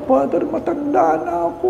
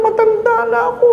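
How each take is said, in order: First: High, soft pleading on matanda; frail grandmother gently pleading matanda na ako; quiet high elderly excuse; soft old lady plea. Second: Very high whine, stress on ako; high elderly complaint; whiny old lady. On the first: Old lady explains to priest. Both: Retold or imitated.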